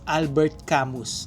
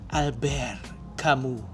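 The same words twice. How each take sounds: First: The name is read as spelled, English style. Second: The name is said with French pronunciation. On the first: The speaker calls it wrong. "the spelling is" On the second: The speaker calls it right. "he's French, so it's pronounced as"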